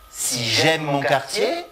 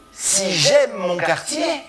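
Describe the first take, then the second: First: Quartier rising at the end; rising question tune. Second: Higher, quartier rising; rising question tune. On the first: Teacher models a rising tune on quartier. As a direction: lift on quartier. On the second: Teacher repeats the phrase with a rising tune on quartier. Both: Shown as a demonstration. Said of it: "l'accentuation, en fait, montante".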